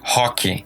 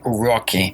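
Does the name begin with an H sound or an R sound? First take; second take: H sound; R sound. First: The name begins with a breathy H-like sound. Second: The name begins with an English R sound. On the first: "in Brazil, we would say hockey" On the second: "with that R"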